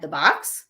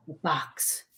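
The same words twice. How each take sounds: First: Said in the usual way. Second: Softly, dropped low, the box; a hushed echo from the spirit; faint ghost voice. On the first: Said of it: "And then Matt said". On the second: Retold or imitated. The spirit repeats Al's words on tape, softly. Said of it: "And then you hear".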